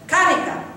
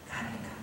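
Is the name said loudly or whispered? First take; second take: loudly; whispered. First: The name is called out loudly. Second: The name is said in a whisper.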